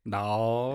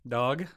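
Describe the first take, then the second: First: The word is said with a drawn-out drawl. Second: The word is said plainly, without a drawl.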